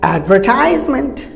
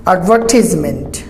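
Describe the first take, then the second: First: Advertisement as ad-ver-TIES-ment; long "ties" in advertisement; usual local pronunciation. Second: Advertisement as ad-VER-tis-ment; short "tis" in advertisement; quoted British-style advertisement; British pronunciation. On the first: Shown as a demonstration. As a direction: say advertisement with an I sound. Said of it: "normally we pronounce advertisement". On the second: Retold or imitated. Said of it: "he pronounced it British".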